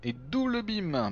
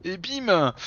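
First: Drawn out slowly, savouring it; slow emphatic. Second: Punchy, triumphant exclamation; excited punchline. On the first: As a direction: stretch it out for effect. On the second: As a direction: land it like a knockout. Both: Real, not acted.

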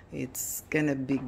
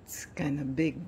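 No difference in how they are said.

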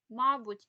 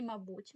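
First: Мабуть stressed on the first syllable, MAbut, louder; wrong stress. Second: Мабуть stressed on the second syllable, maBUT, softer; correct stress. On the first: Teacher shows the wrong stress in мабуть, first syllable. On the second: Teacher shows the right stress in мабуть, second syllable. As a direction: put the stress on БУТЬ in мабуть. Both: Shown as a demonstration. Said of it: "Наголос, до речі".

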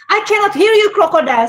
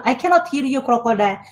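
First: Teacher calls out louder and higher to the class. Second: Said in the usual way. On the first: Shown as a demonstration. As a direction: coax a shy class into answering, loud and high. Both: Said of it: "So when I change my, my voice tone".

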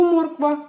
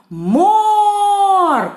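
First: Said in the usual way. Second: Морква called very high and loud with a long МО; calling out. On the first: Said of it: "Слово морква гукаємо". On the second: Shown as a demonstration. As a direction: hold the first syllable of Морква like a far-reaching call. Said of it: "гукаємо".

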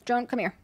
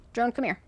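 Both takes have the same delivery.

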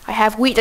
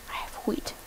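First: Louder call, rising at the end. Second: Whisper. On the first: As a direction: call out WHEAT to the cow, loud and rising. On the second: Whispered take of repeated line. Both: Real, not acted.

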